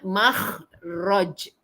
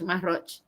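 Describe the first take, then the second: First: The middle consonant is a rasping throaty kh. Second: The middle consonant is a soft breathy h. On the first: This is the original foreign way of saying it. The speaker calls it right. "Sebenarnya makhraj" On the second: This is how locals commonly say it. The speaker calls it wrong. "Kita pun sebutlah mahraj"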